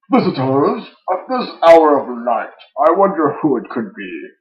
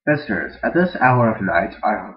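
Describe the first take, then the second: First: Loud, high theatrical villain; needlessly loud villain. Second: Said in the usual way. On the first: Acted. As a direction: project it far louder than needed. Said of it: "louder than was perhaps needed". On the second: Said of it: "like, a normal voice".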